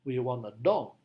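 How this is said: The strongest stress falls on dog. It answers what we want. "penekanannya harus pada kata dog"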